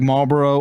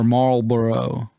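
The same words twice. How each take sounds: First: The L sound is clearly heard in the middle. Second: The R sound dominates and the L fades. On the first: "sometimes the L gets heard" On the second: "sometimes the it's the R that's dominant"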